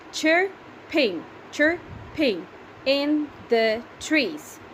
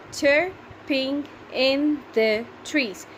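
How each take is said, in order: First: Chirping in the trees, read slowly syllable by syllable. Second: Chirping in the trees drawn out slowly, each syllable spaced; slow syllable reading. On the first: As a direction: count out each syllable slowly for the class. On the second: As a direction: read it slowly so pupils can count. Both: Shown as a demonstration. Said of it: "Can you count how many are they?".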